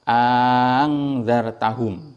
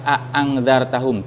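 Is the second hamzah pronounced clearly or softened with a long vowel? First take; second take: softened; clearly. First: The second glottal stop is softened and lengthened. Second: Both glottal stops are pronounced clearly. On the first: "bacaan yang kedua itu" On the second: "jelas hamzahnya itu"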